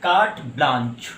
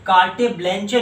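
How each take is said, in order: First: कार्ट ब्लांच with silent final e's, low and falling; correct pronunciation. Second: कार्टे ब्लैंचे read as spelt, both final e's voiced; spelling pronunciation. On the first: Teacher modelling the pronunciation for students, कार्ट ब्लांच with long aa. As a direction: say कार्ट ब्लांच as "kart blaanch", pitched down. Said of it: "इसका pronunciation है". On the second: Teacher showing students the misreading, कार्टे ब्लैंचे with sounded final e's. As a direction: say कार्टे ब्लैंचे with "-tay" and "-chay" endings. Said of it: "इसे आप कार्टे ब्लैंचे नहीं पढ़ेंगे".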